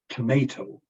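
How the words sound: It is said with an American pronunciation. "and then in American English"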